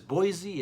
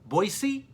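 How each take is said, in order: First: It is said the way non-locals pronounce it. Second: It is said the way locals pronounce it. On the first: The speaker calls it wrong. "The locals do not pronounce it as Boise" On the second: The speaker calls it right. "It's Boise"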